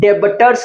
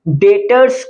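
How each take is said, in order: First: A b sound is heard in the middle. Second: No b sound is heard in the middle. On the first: The speaker calls it wrong. "डेबटर्स नहीं कहते हैं" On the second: The speaker calls it right. "यहां पर बी जो है silent होता है। डेटर्स कहते हैं"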